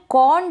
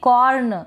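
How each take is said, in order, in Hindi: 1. r को बस हल्का बोला जाता है। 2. r को पूरा और ज़ोर से बोला जाता है। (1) "मैंने आर को थोड़ा सा प्रोनाउंस किया है" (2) "र का पूरा साउंड निकाल देंगे"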